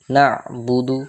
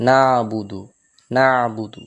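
First: না'বুদু said slowly with no bounce; না'বুদু smooth and unbounced, the right way; slow, careful না'বুদু without qalqala; correct pronunciation. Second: না'বুদু with a bouncing echo on the consonant, the wrong way; না'বুদু with a wrong qalqala bounce; না'বুদু bounced, as the mistake to avoid; wrong pronunciation. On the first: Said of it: "কলকলা হবে না". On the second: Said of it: "তো এটাও ভুল". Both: Shown as a demonstration.

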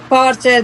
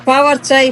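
Both takes have the same delivery.

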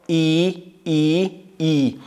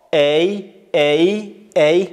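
First: "ای" as a steady drawn-out "ee"; sixth vowel, "ee". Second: Loud "ای" gliding as "ey"; ends in y. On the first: Teacher drills sixth alef, long "ee" on "ای". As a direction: keep "ای" pure, with no glide. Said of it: "ششم ای". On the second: Teacher drills fifth alef, loud gliding "ey" on "ای". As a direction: finish each "ای" on a y sound. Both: Shown as a demonstration.

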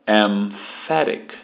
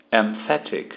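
First: "Emphatic" drawn out slowly, "em" closing on the "m" before the "f"; slow model "Emphatic". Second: Said in the usual way. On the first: Shown as a demonstration. Teacher slowly modelling "Emphatic" for students to copy. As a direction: sound out "Emphatic" carefully, lips shut on the "m". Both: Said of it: "O M fecha, sempre".

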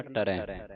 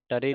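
First: ਟਰੈ ending in an open "ai"; open vowel ending. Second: ਟਰੇ ending in a close "e"; wrong vowel ending. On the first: Teacher gives the correction, ਟਰੈ with open "ai". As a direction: say ਟਰੈ with a wide final "eh". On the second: Teacher shows learners what to avoid, ਟਰੇ with close "e". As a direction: say ਟਰੇ with a narrow final "ay". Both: Shown as a demonstration. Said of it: "ਟਰੇ ਨਹੀਂ ਪੜਨਾ".

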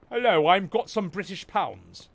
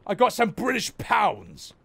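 First: Hammed-up British accent, lower pitch; mock British accent. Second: Said in the usual way. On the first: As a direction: put on a silly British voice.

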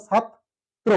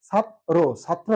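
First: "ছাত্র" as chhat... tro; correct pronunciation demo. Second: "ছাত্র" as chhat-ro, without a second t; mistaken pronunciation. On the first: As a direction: slowly, repeat the t after the break in "ছাত্র". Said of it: "সঠিক উচ্চারণ হচ্ছে". ("ছাত্র"-র সঠিক উচ্চারণ, ছাত-ত্রো) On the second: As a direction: slowly split "ছাত্র" into chhat and plain ro. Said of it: "অনেকে কি লেখে". ("ছাত্র"-র ভুল উচ্চারণ, ছাত-রো) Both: Shown as a demonstration.

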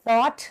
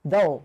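First: Thought said as "thot" with a crisp final t; thought, short vowel and a clipped t ending; careful pronunciation. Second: Though said as "doh", open vowel, no final t; careful pronunciation. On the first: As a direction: model thought clearly, landing the t. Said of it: "หลายคนสับสนบ่อยค่ะ". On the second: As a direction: say though slowly and cleanly, like a teacher modelling it. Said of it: "ที่ครูสอนไปเมื่อกี้คำว่า though". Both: Shown as a demonstration.

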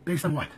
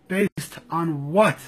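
First: Said in the usual way. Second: "Based on what?" drawn out slowly, each word weighted; slow down and press "what"; slow, pointed. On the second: Real, not acted. Demanding proof from the left, slow and pointed.

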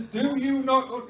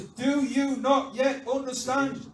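First: Put-on loud, high Yorkshire-accented rebuke; emphatic question in a Yorkshire accent. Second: Loud, high, slow question; acted emphatic reproach; exasperated rebuke. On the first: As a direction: slip into broad Yorkshire, exasperated. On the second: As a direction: spell it out, every word punched. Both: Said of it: "he doesn't say it in a Yorkshire accent".

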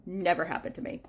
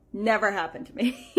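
First: Said in the usual way. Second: Amused, laughing rise on never. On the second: Real, not acted. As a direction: repeat it with a rueful laugh. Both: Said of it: "repeated with a laugh".

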